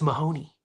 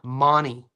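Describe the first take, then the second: First: The name is said with three full syllables. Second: The name is squeezed into two syllables. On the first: The speaker calls it right. "if you're in America, we pronounce it Ben Mahoney" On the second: The speaker calls it wrong. "You know how the Aussies pronounce it? M A H N Y"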